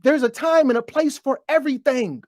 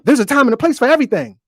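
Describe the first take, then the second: First: Emphatic repeat, stressing time; slow emphatic repeat. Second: Quick throwaway saying; tossed off at speed as a familiar line; rattled off. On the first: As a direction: spell out the saying with weight on time. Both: Shown as a demonstration. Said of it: "You ever heard that?".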